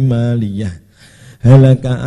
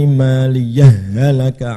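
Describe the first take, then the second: First: A full stop with a breath follows maliyah. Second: The final h of maliyah merges into halaka. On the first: "atau waqaf" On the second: "boleh idgham"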